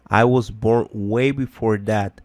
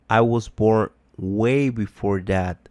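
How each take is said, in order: Both takes have the same delivery.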